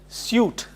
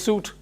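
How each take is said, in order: First: A 'y' sound comes before the vowel. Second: No 'y' sound comes before the vowel. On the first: "there is a ya sound in it. You pronounce it as suit" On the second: "even if you say suit, that's also fine"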